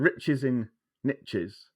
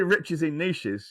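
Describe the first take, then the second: First: Niches is said to rhyme with riches. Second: Niches is said not rhyming with riches. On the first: "which is American niche" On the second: "It doesn't have the same flow"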